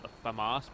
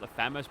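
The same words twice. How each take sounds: First: The name gets a fancier, classier-sounding pronunciation. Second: The name gets a casual everyday pronunciation. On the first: This way sounds more refined. "that sounds a little bit more classy" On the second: This is the usual way to say it. "I usually call it the FAMAS"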